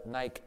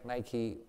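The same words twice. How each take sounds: First: Nike rhyming with bike; one-syllable pronunciation. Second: Nike said as NY-kee; two-syllable pronunciation. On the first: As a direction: say Nike with no final vowel. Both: Shown as a demonstration. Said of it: "how it was pronounced".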